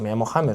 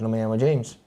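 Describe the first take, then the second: First: The name is pronounced the Spanish way. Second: The name is pronounced the English way. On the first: This is the name he uses for himself. The speaker calls it right. "porque él mismo lo ha dicho, me llamo James" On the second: This is not what he is called. The speaker calls it wrong.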